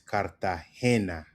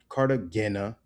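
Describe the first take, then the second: First: The stress is on the third syllable. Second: The stress is not on the third syllable. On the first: The speaker calls it right. "Emphasis on the he" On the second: The speaker calls it wrong. "or not"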